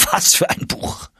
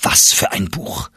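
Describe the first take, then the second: First: High, thrilled cry of delight; excited exclamation. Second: Said in the usual way. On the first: Acted. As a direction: cry out in rapture over the book. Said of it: "rief er".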